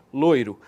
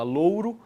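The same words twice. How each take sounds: First: "loiro" with an OI diphthong; variant with OI. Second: "louro" with an OU diphthong; variant with OU. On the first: Teacher contrasting two spellings for students, "loiro" with OI. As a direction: say "loiro" with OY in the first syllable. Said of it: "ora você fala loiro". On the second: Teacher contrasting two spellings for students, "louro" with OU. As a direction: say "louro" with OW in the first syllable. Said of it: "Ora você fala louro". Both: Shown as a demonstration.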